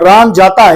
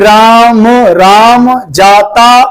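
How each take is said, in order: First: It is read smoothly in one flowing phrase. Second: It is read haltingly, with a word repeated. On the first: The speaker calls it right. "ये flow होना चाहिए" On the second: The speaker calls it wrong. "मिल मिल मिला मिला के पढ़ रहे हो ... ऐसे नहीं पढ़ना"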